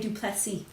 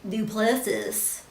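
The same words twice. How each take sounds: First: The name is said with a French-style pronunciation. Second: The name is said with an English-style pronunciation. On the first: This is how a French speaker would say it. "He'll say Duplessis probably" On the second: This is how the family says it. "The way we were, we grew up"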